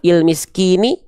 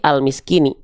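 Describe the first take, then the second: First: The word begins with a vowel other than a. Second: The word begins with the vowel a. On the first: The speaker calls it wrong. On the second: The speaker calls it right.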